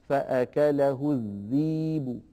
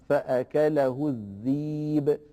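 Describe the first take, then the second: Both takes have the same delivery.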